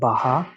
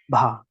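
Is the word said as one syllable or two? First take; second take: two; one. First: A vowel splits it into two syllables. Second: It is said as a single syllable. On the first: The speaker calls it wrong. "not baha" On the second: The speaker calls it right.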